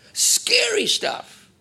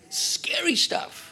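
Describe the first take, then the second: First: Higher, slower whisper with more force; whispered warning. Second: Hushed, slow, breathy whisper; whispered warning. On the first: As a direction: whisper it again, leaning in harder. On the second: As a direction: whisper it like a dark secret. Preacher's warning aside. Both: Real, not acted.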